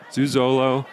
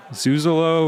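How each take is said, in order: First: "Zuzolo" as zoo-zoh-loh, full o in the middle; name said wrong. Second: "Zuzolo" as zoo-zuh-loh, schwa in the middle; name said right. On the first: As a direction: say "Zuzolo" with a clear long oh in the middle syllable. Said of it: "You were right the first time". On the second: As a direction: say "Zuzolo" with a light uh in the middle syllable. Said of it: "It is Zuzolo. You were right the first time". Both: Real, not acted.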